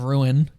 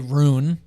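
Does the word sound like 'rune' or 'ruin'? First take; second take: ruin; rune. First: The word sounds like 'ruin'. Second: The word sounds like 'rune'. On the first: The speaker calls it right. "instead of ruin" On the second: The speaker calls it wrong. "why the fuck you say rune instead of ruin"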